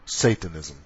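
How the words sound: The word is said with an English pronunciation.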